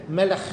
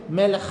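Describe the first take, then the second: The two takes are said the same way.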